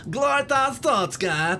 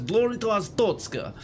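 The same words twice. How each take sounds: First: High, loud mock Kazakh accent; hammed-up, high-pitched Borat accent. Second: Put-on Russian accent with some force; forceful Russian accent. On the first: Gamer demonstrating the wrong accent, loud Borat accent. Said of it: "the sort of the Borat accent". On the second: Gamer showing the intended accent, forceful mock Russian. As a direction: push the salute out in a Russian accent. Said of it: "with a bit of force". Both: Shown as a demonstration.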